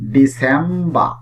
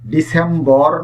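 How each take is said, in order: First: The final r sound is silent. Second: The final r sound is pronounced. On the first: The speaker calls it right. "এই আর British ইংলিশে silent থাকবে" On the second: The speaker calls it wrong. "এটির উচ্চারণ ডিসেম্বর না"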